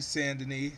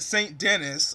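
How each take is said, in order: First: The first word is said like 'san', no t. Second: The first word is said like English 'saint'. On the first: The speaker calls it right. "it's definitely San Denis" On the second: The speaker calls it wrong. "I was calling it Saint Denis"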